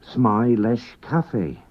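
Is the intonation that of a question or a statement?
statement. It has the intonation of a plain statement. He likes coffee. "He likes coffee"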